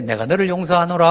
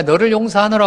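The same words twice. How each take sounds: First: Calm, lofty "내가 너를 용서하노라" at normal level; mild archaic blessing tone; solemn mock forgiveness. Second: "너를" pushed a bit higher and louder; heightened solemn pardon, stress on "너를"; stressed mock forgiveness. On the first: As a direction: pronounce the pardon serenely, unbothered. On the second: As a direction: lean on "너를 용서하노라" with mild grandeur. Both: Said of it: "하고 또 괜찮고".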